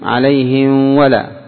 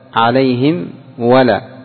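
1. الميم مخفاة، مع غنة تنتقل إلى الواو. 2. الميم مُطبَقة تمامًا ومنطوقة بوضوح. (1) "لو أخفيت عليهم" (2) "تظهر الميم ثم تأتي بولا"

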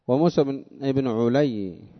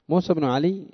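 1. يبدأ اسم العائلة بحركة 'u'. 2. يبدأ اسم العائلة بحركة 'a'. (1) "بضمها" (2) "بفتح العين"

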